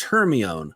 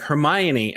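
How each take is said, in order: First: "Hermione" said her-mee-ohn, three syllables; "Hermione" as her-MEE-ohn, ending in -ohn; misread name. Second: "Hermione" said her-MY-oh-nee, four syllables; movie pronunciation. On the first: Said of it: "I've been calling her Hermione". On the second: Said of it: "they're like". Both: Retold or imitated.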